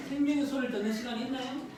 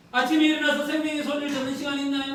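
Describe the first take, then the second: First: Said in the usual way. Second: 더 크게, '아침에'에 힘을 주어 다시 묻기; '아침에'를 또렷이 짚으며 청중에게 되묻듯이; '아침에'를 강조하며. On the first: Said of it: "아침에 생명의 소리를 듣는 시간이 있나요?". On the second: Real, not acted. ('아침에'를 힘주어 강조한 설교조 질문)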